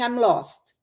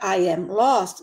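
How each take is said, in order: First: Spoken quickly, with 'am' reduced almost away. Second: Spoken slowly, with 'am' fully pronounced. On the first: "A pessoa fala assim, ... E come esse M" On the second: "quando alguém pronuncia isso devagar"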